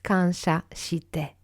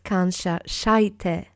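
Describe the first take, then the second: First: The vowel after 'sh' sounds like 'ee'. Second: The vowel after 'sh' sounds like 'eye'. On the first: The speaker calls it right. "It's kansha shite" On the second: The speaker calls it wrong. "it's not kansha shaite"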